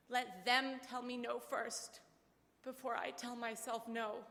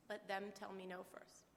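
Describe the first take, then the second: First: Slow, deliberate, each word weighed; father's firm advice. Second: Softer, reflective repeat of "Let them tell me no first."; quiet echo. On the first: Retold or imitated. Father urging daughter, slow and deliberate. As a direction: let it land slowly, like a father's rule. Dad's defiant advice quoted. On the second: Real, not acted. Daughter echoing her dad's motto, softly to herself. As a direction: say it under your breath, as a keepsake.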